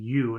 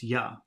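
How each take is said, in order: First: The word ends in a long full 'oo' vowel. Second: The word ends in a short reduced 'uh' vowel. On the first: "instead of saying "you,"" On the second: "it becomes "ya,""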